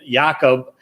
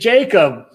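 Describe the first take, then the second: First: The name is said with Swedish pronunciation. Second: The name is said with English pronunciation. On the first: The speaker calls it right. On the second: The speaker calls it wrong.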